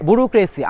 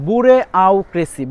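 First: Said in the usual way. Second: বুরে আউ ক্রেসি said slowly, syllable by syllable as spelt; slow spelled-out বুরে আউ ক্রেসি; spelling pronunciation. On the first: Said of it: "বুরুক্রেসি আমি এভাবে মনে রাখি". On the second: Shown as a demonstration. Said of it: "এভাবে মনে রাখি". (ধীরে বানান-উচ্চারণ: বুরে আউ ক্রেসি)

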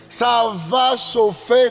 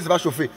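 First: Slow, lifted warning that "ça va chauffer"; drawn-out emphasis. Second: Said in the usual way. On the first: Shown as a demonstration. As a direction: lean into "Ça va chauffer", slow and rising.

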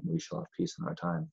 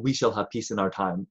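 First: "We shall have peace in our time." said higher and softer; a light hint of Chamberlain, higher and softer; quoting Chamberlain's nickname. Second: Said in the usual way. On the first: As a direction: quote the famous line lightly, higher and softer. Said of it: "he has that lovely, uh, you know, nickname".

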